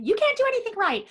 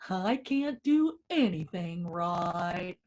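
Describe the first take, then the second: First: It is said in a high, fast voice. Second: It is said slowly in a low Eeyore voice.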